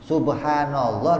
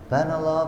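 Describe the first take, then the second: First: Every syllable of the phrase is said fully. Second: The phrase is rushed with its opening syllables dropped. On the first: The speaker calls it right. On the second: The speaker calls it wrong.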